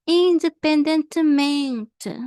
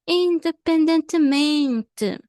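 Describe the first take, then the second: No difference in how they are said.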